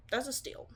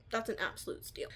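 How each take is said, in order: First: Said in the usual way. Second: Whispering "That's an absolute steal" under the breath; breathy whisper on "absolute steal". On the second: Real, not acted. Repeats phrase, then whispers it.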